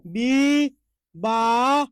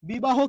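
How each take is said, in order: First: বি-বা-হ as "bee... baa... ho", each held; very slow teaching split of বি-বা-হ, ending on O; syllable-by-syllable demonstration. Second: Said in the usual way. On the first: Shown as a demonstration. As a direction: stretch every syllable of বি-বা-হ with pauses between. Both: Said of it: "তাহলে একটু আপনারাই বলুন".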